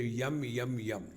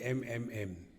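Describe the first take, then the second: First: The letter is said 'yum', Malayali style. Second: The letter is said plainly as 'em'.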